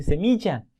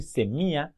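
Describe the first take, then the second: First: Semilla with a clear y sound for ll, "semiya"; correct ll. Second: Semilla as "semia" with the ll dropped and a long final a. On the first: Teacher showing the right way to say semilla. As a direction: say semilla with a crisp ll. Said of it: "a decir semilla". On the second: Teacher showing the wrong way to say semilla. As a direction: say semilla lazily, no ll sound. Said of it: "No es lo mismo decir semilla". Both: Shown as a demonstration.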